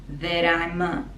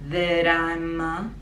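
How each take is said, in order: Both takes have the same delivery.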